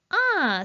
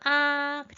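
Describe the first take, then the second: First: The pitch falls sharply from high to low. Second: The pitch stays high and level. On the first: "마지막 아, 아, 사성" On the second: "일성을 눌러주시면 하고 아이들과 함께 발음"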